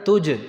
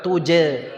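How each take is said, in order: First: The j ends cleanly with no vowel. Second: The j is followed by an e-like vowel. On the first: The speaker calls it right. "Ya, tuj. Tuj. Gitu ya" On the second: The speaker calls it wrong. "jangan dibuat-buat tuje, tuje, enggak. Bukan tuje"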